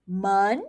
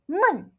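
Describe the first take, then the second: First: "Men" gliding upward; second tone. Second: "men" falling abruptly from high; fourth tone. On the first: Teacher lets learners hear the contrast, "Men" rising. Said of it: "Hear that?". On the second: Teacher lets learners hear the contrast, "men" falling. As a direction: drop "men" short from a high pitch. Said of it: "Just a small tone change". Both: Shown as a demonstration.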